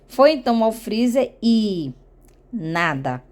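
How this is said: There is a suspenseful pause before the last word. It builds suspense before the outcome. "ela fez uma entonação com essa pausa aqui, dá uma entonação de suspense"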